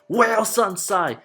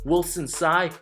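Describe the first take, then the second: First: The name is said in a mocking, condescending tone. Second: The name is said in a plain, neutral tone. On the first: The name is being made fun of. The speaker calls it wrong. "saying it in a condescending tone" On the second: This is the person's real name said respectfully. The speaker calls it right. "my actual name"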